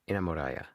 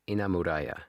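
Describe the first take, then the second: The two takes are said the same way.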